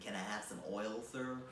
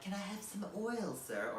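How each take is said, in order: First: It is said in an American accent. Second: It is said in a non-American accent. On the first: "Or like in an American accent" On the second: "He's all like"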